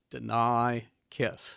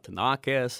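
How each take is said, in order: First: The name sounds like the words 'deny kiss'. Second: The name does not sound like 'deny kiss'. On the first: The speaker calls it right. "just think of it, Deny Kiss" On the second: The speaker calls it wrong. "it's not Denakis"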